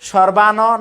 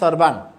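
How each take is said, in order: First: The word ends with a full vowel sound. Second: The word ends on a bare consonant. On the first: The speaker calls it wrong. "না হয়ে" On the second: The speaker calls it right. "হবে সর্বান"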